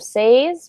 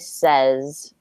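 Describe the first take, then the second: First: The vowel sounds like 'ay' as in 'day'. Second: The vowel sounds like short 'e' as in 'bed'. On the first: The speaker calls it wrong. "Instead of says" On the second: The speaker calls it right. "it's an A, but it sounds like an E"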